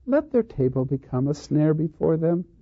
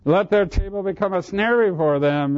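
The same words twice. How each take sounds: First: It is said mildly, without indignation. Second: It is said with righteous indignation.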